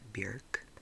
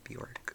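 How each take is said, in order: First: The name is said in its original native way. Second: The name is said in the familiar everyday way. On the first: This is the technically correct pronunciation. "I think it's actually pronounced like" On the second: This is the habitual pronunciation most people use. "we've all just said Bjork for so long"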